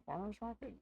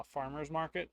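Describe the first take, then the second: First: Farmer's market? rising like a puzzled question; "farmer's market?" tried out, pitch rising; doubtful question. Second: Said in the usual way. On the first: Shown as a demonstration. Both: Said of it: "That doesn't make any sense".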